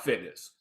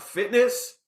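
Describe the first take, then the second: First: Fitness dropped low and quiet, falling flat; falling tune. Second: Fitness lifted high with a rising question tune. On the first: Contrasting his real fitness knowledge, low falling tune. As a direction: let fitness sink down low and soft. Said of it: "what I actually knew about". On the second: Explaining his imagined fitness knowledge, rising tune. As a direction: float fitness up high at the end. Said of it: "what I thought I knew about". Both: Shown as a demonstration.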